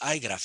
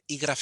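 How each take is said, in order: First: The first letter is said as 'eye'. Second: The first letter is said as 'ee'. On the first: "todos decimos iGraph en inglés" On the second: "en español"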